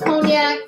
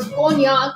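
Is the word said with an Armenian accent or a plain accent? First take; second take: plain; Armenian. First: The word is said in a plain accent. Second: The word is said in an Armenian accent.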